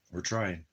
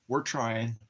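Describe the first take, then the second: First: Said in the usual way. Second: Higher, sing-song voice for the dog; pet talk. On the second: Real, not acted. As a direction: coo it to the puppy. Talking to his dog.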